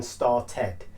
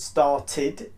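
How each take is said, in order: First: "started" ending in a full "ted"; wrong ED vowel. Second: "started" ending in a short "tid". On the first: Teacher contrasting the mistake, "started" as star-TED. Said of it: "rather than started". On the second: Teacher showing students the correct form, "started" as star-tid. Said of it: "pronounce it with an I D". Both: Shown as a demonstration.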